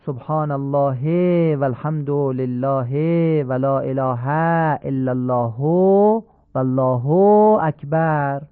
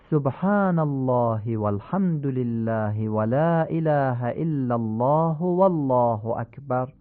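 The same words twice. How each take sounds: First: Every short vowel in «سبحان الله و الحمد لله» dragged out slow; teacher showing the incorrect drawn-out tasbihat; wrongly stretched vowels. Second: «سبحان الله» with short vowels kept short, long ones long; measured correct recitation; correct vowel lengths. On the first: Teacher demonstrates the wrong way to students, vowels stretched long. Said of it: "این کشش ها همش ناصحیحه". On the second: Teacher then models the right way for students, careful lengths. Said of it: "این درسته". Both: Shown as a demonstration.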